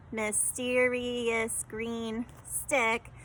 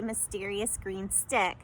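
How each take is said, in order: First: Mysterious green stick, each syllable said slow and separate; counting syllables slowly. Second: Said in the usual way. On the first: Shown as a demonstration. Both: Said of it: "When I counted that".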